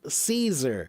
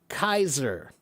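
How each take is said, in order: First: The word begins with an S sound. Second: The word begins with a K sound. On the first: The speaker calls it wrong. "that's the wrong pronunciation. It's not pronounced Caesar" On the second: The speaker calls it right. "The word is supposed to be pronounced Kaiser"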